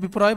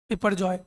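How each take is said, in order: First: The middle syllable 'par' is left out. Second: The middle syllable 'par' is clearly said. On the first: The speaker calls it wrong. "हालांकि मेरे से गलत pronounce हो गया था, मैंने बिप्रॉय बोल दिया था" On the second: The speaker calls it right. "उसका नाम था क्या?"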